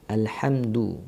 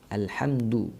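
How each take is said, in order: Both takes have the same delivery.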